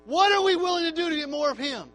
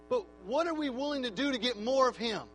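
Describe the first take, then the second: First: Louder insistent repeat. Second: Said in the usual way. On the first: Acted. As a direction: hammer the question again, louder and higher.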